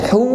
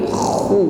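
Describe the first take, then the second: First: It starts with a light breathy h sound. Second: It starts with a thick rasping kh sound. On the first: The speaker calls it wrong. "bukan hu" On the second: The speaker calls it right. "ada suara yang menebal, tetapi khu"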